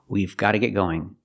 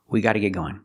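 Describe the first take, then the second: First: A V sound is pronounced after 'we'. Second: No V sound is pronounced after 'we'. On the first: "It should be we've, we've gotta get going. With a contraction" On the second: "Americans usually say it without the V sound, and you just hear we"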